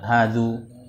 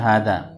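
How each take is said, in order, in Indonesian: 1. Kata ini berakhir dengan vokal u. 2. Kata ini berakhir dengan vokal a. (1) "Tidak bisa dibaca hadzu" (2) "tetap dibaca hadza"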